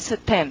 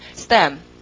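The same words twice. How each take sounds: First: It is said with a Korean accent. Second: It is said with an English accent. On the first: The speaker calls it wrong. "한국말로 읽으면 스템" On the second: The speaker calls it right. "근데 이거는 스템"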